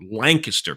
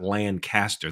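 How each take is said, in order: First: It is pronounced the way the Pennsylvania city is. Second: It is pronounced the way the California city is. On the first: It names the Pennsylvania city. "Lancaster, Pennsylvania" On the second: It names the California city. "It's not Lancaster. That's in California"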